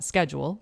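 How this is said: The word is said the American way. "the American way to pronounce it would be"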